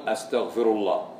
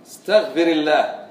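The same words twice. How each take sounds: First: أستغفر with a glottal-stop opening and short a; the first-person form in reply; correct reply. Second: استغفر with a plain opening and i vowel, as a command; the imperative form the teacher gives; past-tense form. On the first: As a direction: model the student's answer "أستغفر الله". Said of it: "تقول". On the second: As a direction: model the teacher's prompt "استغفر الله". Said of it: "أقول لك". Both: Shown as a demonstration.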